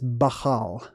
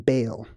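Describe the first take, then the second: First: A guttural sound sits between the two vowels. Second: The vowels run together without a guttural sound. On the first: The speaker calls it right. "More properly, it's more of a guttural sound" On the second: The speaker calls it wrong. "That's the cowboy way of saying it"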